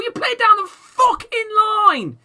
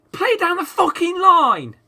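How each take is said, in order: First: Higher, louder yelled order to the players; real angry yell at the team; furious shout. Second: "Play down the fucking line" yelled slowly and loud, higher, each word hammered; drilling the instruction home with a slow, loud yell; slow emphatic shout. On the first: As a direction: bellow the instruction at the screen. Ranting at his team's play. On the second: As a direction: spell out "Play down the fucking line" slowly at full volume, stressing "Play". Repeats the order more slowly. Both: Real, not acted.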